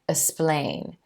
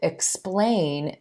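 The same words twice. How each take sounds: First: The x is said as s alone. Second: The x is said with both k and s. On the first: The speaker calls it wrong. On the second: The speaker calls it right.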